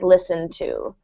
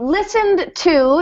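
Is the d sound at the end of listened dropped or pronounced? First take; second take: dropped; pronounced. First: The final d of listened is dropped. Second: The final d of listened is clearly pronounced. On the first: "in connected speech, it will sound like listen to" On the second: "if you want to really pronounce clearly"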